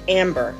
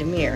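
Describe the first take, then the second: First: The name is said with a b sound. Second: The name is said without a b sound. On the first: This is how Americans would say it. "In America, we would have pronounced it Amber" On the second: This is how locals say it. "they leave off the B and pronounce it Amir"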